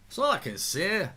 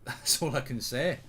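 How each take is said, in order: First: Put-on higher, louder Scottish accent; same line redone in a Scottish accent. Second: Said in the usual way. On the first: Streamer mimicking a Scottish pundit, Scottish accent. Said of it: "that's a good Scottish accent".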